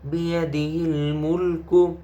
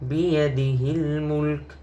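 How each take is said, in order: First: The phrase ends with a short u vowel. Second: The phrase ends on the bare k consonant. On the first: The reciter continues reading without stopping. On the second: The reciter stops at this point.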